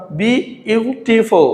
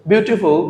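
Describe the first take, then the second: First: "beautiful" slowly as bi, u, ti, ful; split into syllables. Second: Said in the usual way. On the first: Shown as a demonstration. Teacher explaining the answer, "beautiful" slowly split bi, u, ti, ful. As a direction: pause between the syllables of "beautiful". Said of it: "আমাদের বলেছে চারটি". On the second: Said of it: "কারণ beautiful".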